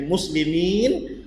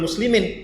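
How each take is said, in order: First: The vowel before the final n is long. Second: The vowel before the final n is short. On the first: The speaker calls it right. "Kenapa mi dibaca panjang?" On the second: The speaker calls it wrong. "bukan bukan muslimin"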